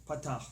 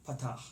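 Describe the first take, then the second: No difference in how they are said.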